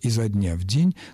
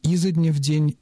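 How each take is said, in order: First: The stress falls on the noun. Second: The stress falls on the preposition. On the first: This is an acceptable alternative. "он мог сказать" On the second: This shows good command of the language. "тот вариант, который даже более русский"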